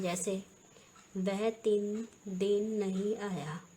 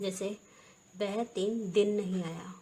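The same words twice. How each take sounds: First: The vowel in din is held long. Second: The vowel in din is kept short. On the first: The speaker calls it wrong. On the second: The speaker calls it right.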